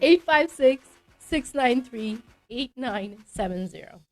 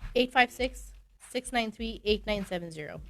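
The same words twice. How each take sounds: First: The number is said at a slow pace. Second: The number is said at a fast pace.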